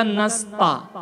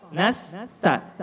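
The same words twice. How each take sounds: First: "nasta" slowly with thick t and dark a; the mistaken heavy "ta" ending nasta. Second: "Nasta" softly, light t and fronted a; thin t. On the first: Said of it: "bukan nasta". (nasta dengan ta tebal) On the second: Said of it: "posisi lidah turun". (Nasta dengan ta tipis) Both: Shown as a demonstration.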